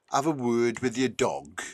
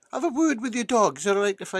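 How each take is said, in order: First: Said in the usual way. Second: Higher-pitched repeated request; insistent repeat. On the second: Acted. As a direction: say it higher for someone who didn't get it. Inspector repeats after farmer's What.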